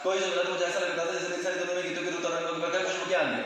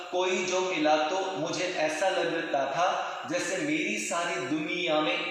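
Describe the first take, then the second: First: Very fast recitation; rushed run-on poem lines. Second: Evenly paced, clear words; clear, measured. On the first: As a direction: race through the whole line. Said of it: "अब मैंने यही चीज fast बोली". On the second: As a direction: speak it clearly at normal pace. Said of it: "अब आपको सुनाई दे रहा है". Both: Shown as a demonstration.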